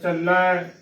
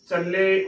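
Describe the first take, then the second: First: The word ends in an 'ai' vowel. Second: The word ends in an 'e' vowel. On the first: The speaker calls it right. "ਚੱਲੈ ਸਹੀ ਉਚਾਰਨ ਹੈ" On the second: The speaker calls it wrong. "ਉਚਾਰਨ ਗਲਤ ਹੋਵੇਗਾ ਲਾਵਾਂ ਦੇ ਨਾਲ"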